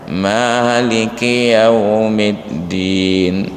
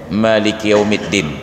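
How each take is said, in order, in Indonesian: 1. Vokal pertama pada Maliki panjang. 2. Vokal pertama pada Maliki pendek. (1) "Tapi kita mazhab Syafi'i, bacaannya panjang" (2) "ada qiraah yang membacanya pendek"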